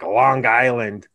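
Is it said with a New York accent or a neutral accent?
New York. It is said with a New York accent.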